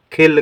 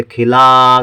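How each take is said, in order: First: खिल closed on the l, without any aa; no final vowel. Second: खिला with the closing aa held long; long final aa. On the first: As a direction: stop खिल on ल with no आ after it. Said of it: "आ की मात्रा नहीं है". (खिल, अंत में बिना आ के) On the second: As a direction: stretch out the आ at the end of खिला. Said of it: "आ का उच्चारण बढ़ जाएगा". (खिला में आ को खींचकर) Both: Shown as a demonstration.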